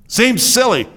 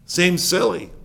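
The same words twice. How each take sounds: First: "Seems silly" with both words hit high; emphatic repeat. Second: Said in the usual way. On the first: Shown as a demonstration. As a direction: say it over with punch on "silly".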